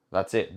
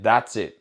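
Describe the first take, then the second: First: Said in the usual way. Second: "That's" punched louder; stress on that's. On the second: Shown as a demonstration. Coach insisting to followers, "That's" stressed. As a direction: hit "That's" hard and let "it" fall.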